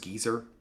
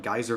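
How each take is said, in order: First: The first vowel sounds like 'ee'. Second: The first vowel sounds like 'eye'. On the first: "Brits pronounce it geezer" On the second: "Geyser versus Geezer"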